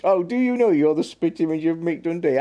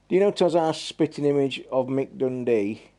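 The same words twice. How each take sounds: First: Put-on high, loud Aussie accent; mock Aussie accent. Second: Said in the usual way. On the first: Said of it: "I won't do my Aussie accent". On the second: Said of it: "my Aussie accent".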